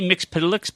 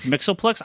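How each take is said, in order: First: The name is said as Mixpidalix. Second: The name is said as Mixoplex. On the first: The speaker calls it wrong. "I will never say Mixpidalix" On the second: The speaker calls it right. "It's Mixoplex"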